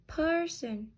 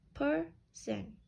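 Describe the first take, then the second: First: Said in the usual way. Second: "person" split as per, sen; syllable by syllable. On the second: Shown as a demonstration. Teacher counting two syllables, "person" syllable by syllable. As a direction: leave a gap between both beats of "person". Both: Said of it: "has two syllables".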